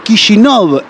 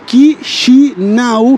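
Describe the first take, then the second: First: The name is said with a Russian pronunciation. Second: The name is said with a Romanian pronunciation. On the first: "Kishinov en ruso" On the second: "se pronuncia Chisinau en rumano"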